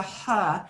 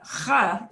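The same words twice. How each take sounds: First: "huh" with a light English H; easy English-style "huh"; plain English H. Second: "huh" scraped from down in the throat; throaty Spanish J. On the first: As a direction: say "huh" as a simple breathed H, no throat rasp. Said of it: "it won't just be a huh". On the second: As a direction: say "huh" with a raspy back-of-throat J. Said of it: "is how more it should sound". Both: Shown as a demonstration.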